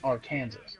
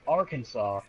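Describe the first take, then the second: First: The word ends like the word Kansas. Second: The word ends with a 'saw' sound. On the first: "Kansas pronounced Kansas, but Arkansas isn't Arkansas" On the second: "but Arkansas isn't Arkansas?"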